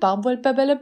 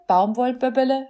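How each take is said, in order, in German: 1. Das Wort wird mäßig schnell gesprochen. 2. Das Wort wird langsam gesprochen.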